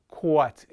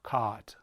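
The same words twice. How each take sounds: First: "quat" with a strong rounded, gliding "aw", like "caw-uht"; New York rounded vowel. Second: Said in the usual way. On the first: Shown as a demonstration. Linguist citing a stigmatized local vowel, New York rounded vowel. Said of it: "get away with saying". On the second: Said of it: "instead of, of".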